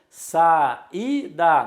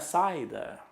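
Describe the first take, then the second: First: The a and i are in separate syllables. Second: The a and i glide into one syllable. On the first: The speaker calls it right. "Facilmente eu percebo que é um hiato. Saída" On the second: The speaker calls it wrong. "não é saída"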